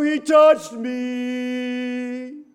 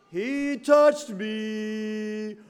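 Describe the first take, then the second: First: Ecstatic cry. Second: Said in the usual way. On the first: Real, not acted. Ecstatic outburst of testimony.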